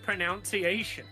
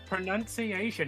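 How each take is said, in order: First: The second syllable sounds like 'noun'. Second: The second syllable sounds like 'nun'. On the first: The speaker calls it wrong. "It's not pronounced pronunciation" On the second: The speaker calls it right. "It's pronunciation"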